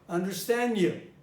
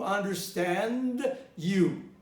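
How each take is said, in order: First: The d sound after n is dropped. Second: The d sound after n is clearly pronounced. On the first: "But I did what?" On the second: "It would have been pronounced like this"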